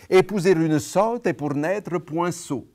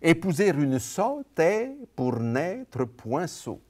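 First: The word 'est' has a short closed vowel. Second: The word 'est' has a long open vowel. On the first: The speaker calls it wrong. "Eh bien non, c'est faux, ça, ce que je viens de dire" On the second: The speaker calls it right. "c'est une syllabe ouverte et longue"

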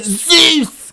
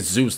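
First: The name is screamed loudly and forcefully. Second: The name is said at a normal, calm volume. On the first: The speaker calls it right. "Kratos screams Zeus's name" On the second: The speaker calls it wrong. "We don't say Zeus normal"

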